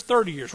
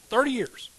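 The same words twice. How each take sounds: First: Said in the usual way. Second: Excited emphasis. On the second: Real, not acted. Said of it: "We're celebrating thirty years".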